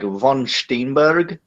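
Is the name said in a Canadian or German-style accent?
German. The name is said in a German dialect accent. "dialect of German, and we pronounce pronounce it like von Steenberg kind of"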